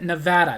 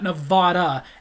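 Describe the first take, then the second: First: It is said the way local residents say it. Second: It is said the way outsiders say it. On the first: The speaker calls it right. "you heard the way I said it" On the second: The speaker calls it wrong. "not Nevada, everybody else who doesn't live in Nevada"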